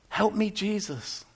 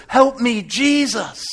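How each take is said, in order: First: Soft, slow, hushed prayer; quiet, drawn-out plea; subdued plea. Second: Loud, high cry for help; raised-voice repeat of a frightened prayer; cried-out plea. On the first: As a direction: say it slowly, softly, almost to yourself. Same plea repeated, now subdued. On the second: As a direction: call it out desperately. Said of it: "I cried out". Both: Acted.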